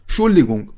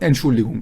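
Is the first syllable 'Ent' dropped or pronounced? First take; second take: dropped; pronounced. First: The first syllable 'Ent' is left out. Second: The first syllable 'Ent' is clearly said. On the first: The speaker calls it wrong. "انتشو میخورن. ... ولی اینجوری نگید" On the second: The speaker calls it right. "شما Entschuldigung بگید"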